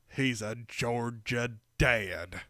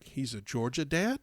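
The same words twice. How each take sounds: First: It is said in a broad Southern drawl. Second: It is said in an ordinary everyday accent.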